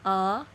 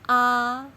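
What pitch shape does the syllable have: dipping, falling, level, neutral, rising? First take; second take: rising; level. First: The pitch rises from mid to high. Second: The pitch stays high and level. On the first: "like when we point something to others" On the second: "The first tone is like we sing do"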